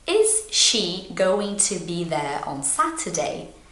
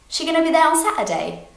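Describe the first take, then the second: First: Every word is said slowly and fully. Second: It is quick, with words dropped and reduced. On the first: "Very slowly" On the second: "in a natural speed"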